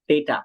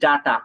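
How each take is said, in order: First: The first vowel sounds like 'ay'. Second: The first vowel sounds like 'ah'. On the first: The speaker calls it right. "should be data" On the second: The speaker calls it wrong. "আমরা বলি ডাটা"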